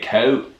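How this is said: The vowel sounds like British English. This is how the local interviewee actually says it. "but they say Coke. ... Like British people"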